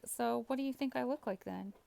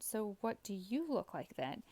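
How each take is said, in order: First: Said in the usual way. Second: "you" stretched and lifted above the other words; stress on YOU. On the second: Retold or imitated. Gamer turning the looks question back on the other player, stress on "you". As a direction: lean hard on "you", pitch swelling up on it.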